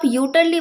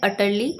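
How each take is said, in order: First: The word starts with a 'you' sound. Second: The word starts with an 'uh' sound. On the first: The speaker calls it wrong. "इसको आप यूटरली मत बोल दीजिएगा" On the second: The speaker calls it right. "जो यू लिखा है उसे हम अ प्रोनाउंस करते हैं, तो करेक्ट प्रोनाउंसिएशन होती है अटरली"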